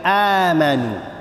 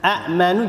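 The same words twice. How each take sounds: First: The first vowel is lengthened without a glottal stop. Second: A second glottal stop comes before the consonant. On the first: "hamzah yang kedua jadi huruf mad" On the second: "Dua ekor hamzah, satu hamzah hidup, satu hamzah lagi sakin"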